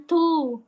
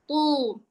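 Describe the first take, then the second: First: "tu" with a light, plain t; light-tongued "tu", not thickened; wrong thin tu. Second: "tu" with a heavy t, back of tongue raised; dark, thickened "tu"; thick tu. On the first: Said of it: "Bukan tu". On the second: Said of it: "Kalau yang huruf tebal". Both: Shown as a demonstration.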